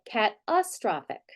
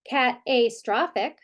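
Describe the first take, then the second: First: The unstressed vowel is reduced to schwa. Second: The unstressed vowel is full and clear. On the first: The speaker calls it right. "we say cat astrophic" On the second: The speaker calls it wrong. "We don't say cat astrophic"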